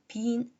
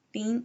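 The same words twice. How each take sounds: First: "been" with the vowel nasalized before the n. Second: "been" with an oral, non-nasal vowel; non-nasalized vowel. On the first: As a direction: say "been" letting the vowel resonate through the nose. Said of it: "원래는 비음화하셔서 모음을 발음하셔야". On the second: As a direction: say "been" keeping the nose out of the vowel. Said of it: "발음을 비음화하지 않고". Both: Shown as a demonstration.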